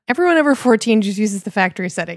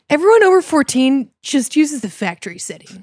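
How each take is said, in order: First: It is said in a plain, neutral tone. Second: It is said in a smug, self-satisfied tone.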